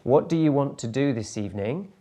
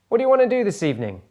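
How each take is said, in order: First: Every word is said fully and separately. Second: "Want to" is squeezed into "wanna". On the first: The speaker calls it wrong. "sounding a bit like robotic" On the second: The speaker calls it right. "you can just say, what do you wanna?"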